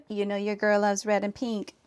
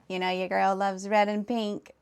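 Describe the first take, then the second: First: Put-on Valley Girl voice. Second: A hint of Valley Girl. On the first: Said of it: "I don't like the way you made me sound". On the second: Streamer reading back how chat made her sound, mock Valley Girl. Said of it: "What in the valley, girl?".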